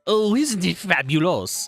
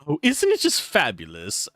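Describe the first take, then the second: First: It is said in a French accent. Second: It is said in a plain accent.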